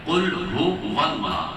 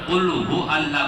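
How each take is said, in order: First: A w sound links hu to Allah. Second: Allah follows hu with no w sound. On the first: The speaker calls it right. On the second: The speaker calls it wrong.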